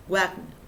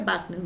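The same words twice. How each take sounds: First: Wagner with a Spanish gw sound at the start; W read as gw. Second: Wagner said with an initial b sound; W pronounced as B. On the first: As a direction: say Wagner as "GWAG-ner". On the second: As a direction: say Wagner as "BAG-ner". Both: Shown as a demonstration. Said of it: "Recuerda que se pronuncia Wagner".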